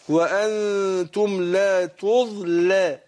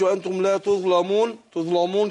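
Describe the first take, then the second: First: The l sound is light and thin. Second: The l sound is heavy and thick. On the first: The speaker calls it right. "اللام هنا ايه مرققه" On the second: The speaker calls it wrong. "ما اقولش وانتم لا تظلمون كده"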